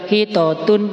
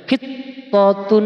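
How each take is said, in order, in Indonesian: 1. Bunyi t tunggal dan tidak ditekan. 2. Bunyi t digandakan dan ditekan. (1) "Enggak boleh dibaca hitotun" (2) "ditekan dulu"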